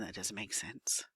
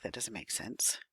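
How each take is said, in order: First: Whispered to herself under her breath. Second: Said in the usual way. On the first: Real, not acted. Teacher puzzling over the worksheet, whispering to herself.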